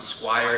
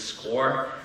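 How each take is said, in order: First: It is said like the word squire. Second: It is said like the word score. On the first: The speaker calls it wrong. "Some people pronounce it Squire" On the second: The speaker calls it right. "It is SCORE"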